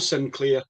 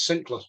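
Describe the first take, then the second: First: It is said in a non-Scottish way. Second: It is said in a Scottish way. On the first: The speaker calls it wrong. "it's no Sinclair" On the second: The speaker calls it right. "We're Scottish. Let's pronounce it right"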